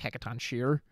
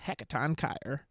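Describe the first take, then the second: First: The second part begins with a 'sh' sound. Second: The second part begins with a 'k' sound. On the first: The speaker calls it wrong. "a lot of people call it like" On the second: The speaker calls it right. "if Persona five is accurate ... it's"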